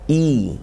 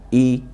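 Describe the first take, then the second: First: The vowel is clear and fully formed. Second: The vowel is relaxed and only loosely formed. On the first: This is how Arabic requires it. "rahangnya didamparkan" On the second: This is the casual everyday Indonesian way. "Kalau bahasa Indonesia mungkin sekedarnya saja cukup i"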